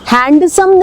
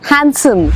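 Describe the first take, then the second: First: The d sound is pronounced in the middle. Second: The d sound is left out entirely. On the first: The speaker calls it wrong. "हैंडसम नहीं" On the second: The speaker calls it right. "उसमें डी silent है"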